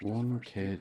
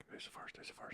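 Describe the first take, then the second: First: Said in the usual way. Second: Whispered. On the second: Shown as a demonstration. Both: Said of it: "repeating question differently".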